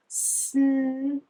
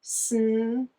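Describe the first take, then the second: First: Snail stretched slowly sound by sound. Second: Snail stretched slowly sound by sound, rising at the end. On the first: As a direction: draw out Snail into its separate sounds. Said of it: "I'm gonna say the sounds". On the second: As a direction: pull Snail apart slowly for the class to copy. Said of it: "Do it with me". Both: Shown as a demonstration.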